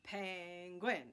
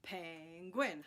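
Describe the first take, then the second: First: Pen-guin split into two pushes; two beats. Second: Pen-guin in two pushes once more; two beats again. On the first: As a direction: say penguin in two even pushes. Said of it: "push down the invisible button". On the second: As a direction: repeat penguin as two clear beats. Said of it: "Let's try it again". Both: Shown as a demonstration.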